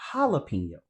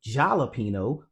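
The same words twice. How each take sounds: First: The word begins with a Y sound. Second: The word begins with a J sound. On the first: The speaker calls it right. "we say jalapeno" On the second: The speaker calls it wrong. "We don't say jalapeno"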